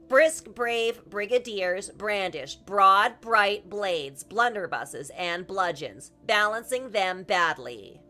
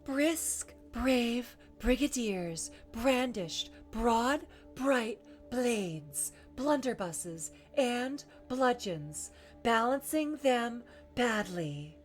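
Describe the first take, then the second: First: The voice is clear and tight, without breathiness. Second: The voice is airy, with much breath. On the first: "in their pure voice" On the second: "one more time in breathy"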